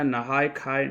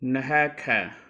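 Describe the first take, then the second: First: It is said in a widely shared pronunciation. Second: It is said in the distinctly Maithili pronunciation. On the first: The speaker calls it wrong. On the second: The speaker calls it right.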